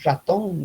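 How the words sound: The R is said the La Paz way.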